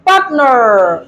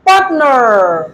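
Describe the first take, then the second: The two takes are said the same way.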